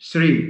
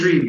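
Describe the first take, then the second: First: The word begins with an s sound. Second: The word begins with a t sound. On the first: "goes to Sri" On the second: "or tree by some some people"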